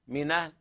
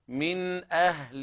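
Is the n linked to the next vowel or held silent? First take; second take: linked; held silent. First: The n carries the vowel, with no glottal stop. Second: The n is held silent before a glottal stop. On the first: This follows one reading tradition. "بنقل حركة الهمزة إلى الساكنة قبلها" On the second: This follows the other reading traditions. "بإسكان النون وعدم الغنة فيها"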